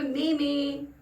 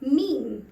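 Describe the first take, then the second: First: It is said as two syllables, 'may-main'. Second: It is said as one syllable, 'meem'. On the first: The speaker calls it wrong. "लोगों को mispronounce करते हुए" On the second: The speaker calls it right. "जबकि ये word है मीम"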